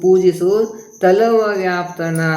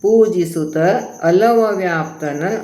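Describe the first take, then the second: First: The break comes right after 'pujisu'. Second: The break comes right after 'pujisutta'. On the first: The speaker calls it wrong. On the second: The speaker calls it right.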